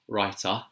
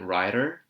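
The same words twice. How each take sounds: First: It is said in a London accent. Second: It is said in an American accent. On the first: "So the London accent would be writer" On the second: "And the American accent would be brilliant writer"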